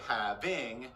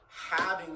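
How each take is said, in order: First: The stress is on the second syllable. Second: The stress is on the first syllable. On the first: The speaker calls it wrong. "we don't say having" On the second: The speaker calls it right. "we go having some business"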